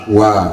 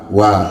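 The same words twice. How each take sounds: No difference in how they are said.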